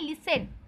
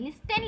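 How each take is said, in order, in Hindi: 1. बीच में t की आवाज़ साइलेंट है। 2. बीच में t की आवाज़ बोली जाती है। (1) "पर इसे पढ़ते हैं लिसन" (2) "लिस्टेन लिखा है"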